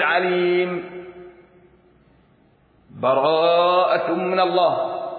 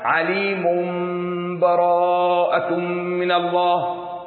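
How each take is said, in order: First: The voice stops fully after the first word. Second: The words run on with no break. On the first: "الوقف" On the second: "والوصل"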